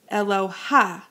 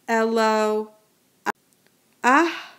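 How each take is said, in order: First: The final a vowel comes after the h. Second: The final a vowel comes before the h. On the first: The speaker calls it wrong. "Please be careful not to say eloha" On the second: The speaker calls it right. "you pronounce the vowel first, the patach first, and the mapike second"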